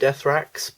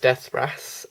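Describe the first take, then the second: First: The name ends with a ks sound. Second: The name ends with an s sound. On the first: This is the speaker's habitual way of saying it. The speaker calls it wrong. "I always pronounce it Deathrax" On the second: This is how the name is properly said. The speaker calls it right. "but it's Deathras, I think"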